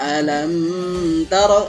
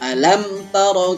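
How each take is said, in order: First: The m is blurred into the following t. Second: The m is pronounced clearly before the t. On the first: The speaker calls it wrong. "jangan dibaca" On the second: The speaker calls it right. "hukum bacanya idhar syafawi"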